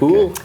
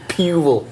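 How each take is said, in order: First: The word is said like plain 'pool'. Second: The word is said like 'pew-el'. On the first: The speaker calls it right. "I say" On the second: The speaker calls it wrong. "I don't say pewel"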